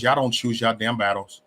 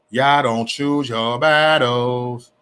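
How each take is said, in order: First: Said in the usual way. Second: Very slow, stretching "battles"; slow, emphatic scolding; drawn-out reproach. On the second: Real, not acted. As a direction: drag out each word, especially "battles".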